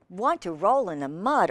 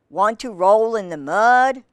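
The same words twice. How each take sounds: First: Said in the usual way. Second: Lightly voiced pig, projected question; storybook pig's invitation. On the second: A narrator's reading. Reader gives the pig's line to children, lightly acted invitation. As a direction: read it out as a pig's mild invitation. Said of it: "grunted the pig".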